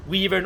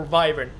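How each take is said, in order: First: "wyvern" with first vowel as in "week"; "wyvern" with a long ee up front; ee pronunciation. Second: "wyvern" with first vowel as in "five"; "wyvern" with an eye sound up front; long-i pronunciation. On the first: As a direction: say "wyvern" like "WEE-vern". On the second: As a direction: say "wyvern" like "VY-vern". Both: Shown as a demonstration. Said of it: "the pronunciation of the word".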